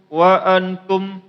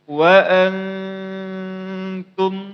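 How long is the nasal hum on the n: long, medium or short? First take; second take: short; medium. First: The nasal hum is cut very short. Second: The nasal hum is held moderately long. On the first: The speaker calls it wrong. "bacaan yang pertama itu bacaannya pendek" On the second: The speaker calls it right. "Dengungnya segitu aja dia. Jangan terlalu panjang, jangan juga terlalu pendek"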